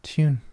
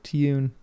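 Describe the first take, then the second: First: The word is said in a British accent. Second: The same.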